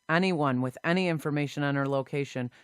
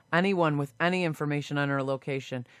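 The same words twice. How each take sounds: No difference in how they are said.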